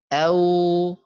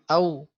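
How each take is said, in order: First: It is said softly and without hurry. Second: It is said quickly and abruptly. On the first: The speaker calls it right. "lembut atau mudah keluarnya ya, tidak terlalu terburu-buru mengucapkannya" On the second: The speaker calls it wrong. "jangan au ... ini enggak ada sifat linnya"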